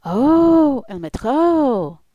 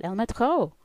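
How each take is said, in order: First: Loud, high, drawn-out "Oh, El Metro" with French r; exclaimed French pronunciation. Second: "El Metro" higher and louder, French r, quicker; French pronunciation. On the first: Women interpreting for the man, loud exclaimed French "El Metro". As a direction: call out "El Metro" in French, stretched and swooping. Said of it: "They understood and interpreted for the man". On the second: Speaker echoing what cousin said, French "El Metro". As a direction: say "El Metro" in French with a raised swoop. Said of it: "exactly like what she'd said". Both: Retold or imitated.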